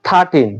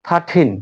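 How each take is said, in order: Both takes have the same delivery.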